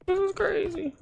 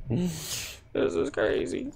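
First: Much higher, softer squeak; squeaky voice. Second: Unvoiced, much softer whisper. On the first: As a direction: squeak it in silly disbelief. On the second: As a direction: breathe it out in disbelief. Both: Real, not acted. Whispered then squeaked repeat.

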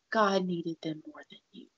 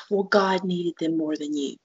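First: Bitter whispered quote, much softer. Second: Said in the usual way. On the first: Retold or imitated. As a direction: breathe the words out with no voice. Repeats the hurtful quote, whispered.

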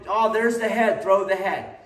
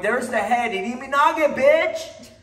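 First: Higher and louder, eager for the throw; mock eager student; eager grabbing. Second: Climbing much higher and louder to a yell on bitch; hammed-up ego yell; mock aggressive shout. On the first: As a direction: push for the throw like a greedy student. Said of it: "stop trying to". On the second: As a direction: bark the throw at them like a bully. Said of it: "Without going".

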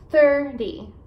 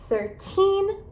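First: THIRTY with a strong THIR, falling away; THIR-dy, flapped light ending on THIRTY; stress on first syllable. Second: Put-on THIRTEEN with TEEN lifted high and long; thir-TEEN, second syllable stressed; stress on final syllable. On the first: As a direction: punch the start of THIRTY. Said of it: "enfatizar as sílabas no começo da palavra". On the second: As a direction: raise and stretch the end of THIRTEEN. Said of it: "você vai enfatizar as sílabas, eh, no final". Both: Shown as a demonstration.

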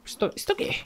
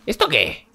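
First: Squeaky mock whisper. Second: Said in the usual way. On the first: Mocking an in-game ad.

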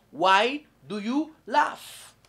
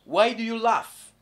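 First: Why do you laugh drawn out, you stressed; teacher repeating the question slowly; slow model question. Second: Said in the usual way. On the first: Shown as a demonstration. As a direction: say it slowly for learners. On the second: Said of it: "oseka po anini?".

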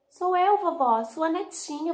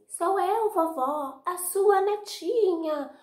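First: Put-on high, loud little-girl voice; bright high granddaughter calling through the door. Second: High, sweet put-on little-girl voice, louder and slow at the end; a wolf squeaking like a sweet granddaughter; high sugary fake girl voice; wolf faking girl. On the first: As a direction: sing it out like a small happy girl. Real granddaughter answers. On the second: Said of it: "ele disfarçou a voz, fingiu que era Chapeuzinho".

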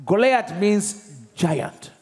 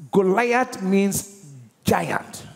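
First: Each word drawn out slowly; slow teaching emphasis. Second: Slow teaching emphasis. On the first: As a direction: spell it out for the class. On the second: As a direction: repeat it for the class. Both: Shown as a demonstration. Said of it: "Means what?".

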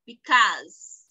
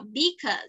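First: "because" with a loud, drawn-out second syllable; wrongly stressed demo. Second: "because" said short, without drawing out the end; stress demo. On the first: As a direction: overdo the end of "because", long and falling. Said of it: "Ia tá errado". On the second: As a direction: say "because" compactly, as the model take. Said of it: "a parte que a gente vai dar mais entonação". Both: Shown as a demonstration.

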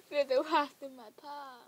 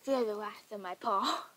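First: Higher, louder, through laughter; laughing. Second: Loud, playful threat; mock battle cry. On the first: Real, not acted. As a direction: crack up while making the mock threat. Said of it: "I don't know why I'm laughing". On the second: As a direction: call it out like a cat warrior's threat.

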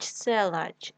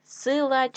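First: Селач with е instead of и; wrong variant селач, first vowel е; е in first syllable. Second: Said in the usual way. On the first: Shown as a demonstration. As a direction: say селач with open e after С. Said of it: "нам потрібно вставити або".

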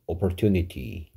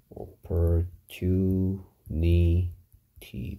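First: Said in the usual way. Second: "opportunity" very slowly in separate syllables; "opportunity" sounded out piece by piece. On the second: Shown as a demonstration. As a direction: break "opportunity" apart with pauses between syllables. Teacher breaking the word into syllables.

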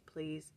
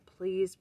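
First: Softer plea. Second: Louder plea. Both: Acted. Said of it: "a prayer might be worded like this".

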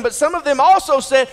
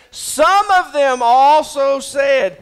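First: Said in the usual way. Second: Some of them also said, drawn out slow with weight on of; slowed for emphasis. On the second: Shown as a demonstration. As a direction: lean on it slowly so they listen. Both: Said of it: "listen to this".

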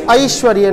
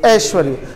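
First: ऐश्वर्य starting with "a-i"; correct pronunciation. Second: ऐश्वर्य starting on a single "e"; incorrect pronunciation. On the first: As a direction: say ऐश्वर्य as "a-ish-va-rya". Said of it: "शुद्ध उच्चारण क्या है?". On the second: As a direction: say ऐश्वर्य as "esh-va-rya". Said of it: "ना कि". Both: Shown as a demonstration.

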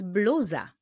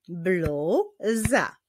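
First: Said in the usual way. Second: "Bluza" as blu, pause, za; syllable by syllable. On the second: Shown as a demonstration. Teacher demonstrates clapping, "Bluza" in two separate beats. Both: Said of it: "wyklaszczmy sylaby w tych wyrazach".

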